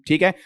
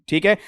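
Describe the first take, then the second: Both takes have the same delivery.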